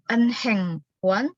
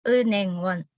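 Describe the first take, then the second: First: The h sound is clearly pronounced. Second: The h sound is dropped, almost silent. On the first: The speaker calls it wrong. "Jadi bukan" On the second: The speaker calls it right. "Karena ada niannya di sini"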